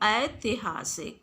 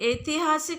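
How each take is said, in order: First: The first vowel sounds like 'ai'. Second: The first vowel sounds like 'e'. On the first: The speaker calls it right. "बल्कि क्या होता है" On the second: The speaker calls it wrong. "ऐतिहासिक नहीं होता"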